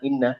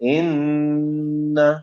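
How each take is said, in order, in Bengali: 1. শব্দটা নাকি সুর ছাড়া বলা হয়েছে। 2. শব্দটা জোরালো নাকি সুর দিয়ে বলা হয়েছে। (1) "যদিও আমরা বলি হচ্ছে ইন্না" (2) "আসলে আমাকে নাকের ভিতর থেকে সাউন্ডটা আনতে হবে"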